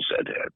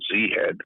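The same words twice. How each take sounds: First: The first part is said as 'zed'. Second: The first part is said as 'zee'. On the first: This is the Canadian way. "they're saying" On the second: This is the usual American way. "all these American types, instead of saying"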